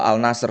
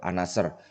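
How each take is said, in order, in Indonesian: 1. Bunyi L diucapkan di artikel. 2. Bunyi L diganti dengan bunyi N. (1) "katanya itu dibaca bukan Al" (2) "katanya L-nya nggak dibaca ya"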